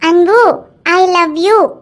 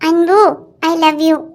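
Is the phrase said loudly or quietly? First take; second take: loudly; quietly. First: The phrase is said at a loud volume. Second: The phrase is said at a quiet volume.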